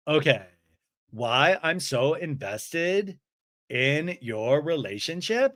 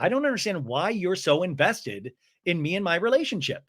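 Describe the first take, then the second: First: Slow, smiling echo; Lisa. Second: Lightly voiced mock complaint; Brittany. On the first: Retold or imitated. Smiling friend repeats the complaint back, slowly and incredulously. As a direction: draw it out as a deliberate question. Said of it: "And Lisa's smiling". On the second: Woman objecting to friend's investment, in mild mock upset. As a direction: state it as a puzzled complaint. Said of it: "Brittany's like".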